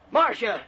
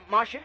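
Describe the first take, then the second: First: MARCIA sharply higher, falling, as a demand; angry call. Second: MARCIA rising at the end, checking; questioning. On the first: Husband demanding his wife return to the phone, angry. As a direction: call MARCIA out angrily, pitched up. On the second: Husband checking his wife is still there, questioning. Phone has gone silent. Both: Acted.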